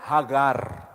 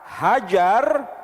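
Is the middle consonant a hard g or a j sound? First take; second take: hard g; j sound. First: The middle consonant is a hard g. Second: The middle consonant is a j sound. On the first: This is the Hebrew pronunciation. "mereka menyebutnya hagar. Huruf G, gimel" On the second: This is the Arabic pronunciation. "kalau bahasa Arabnya"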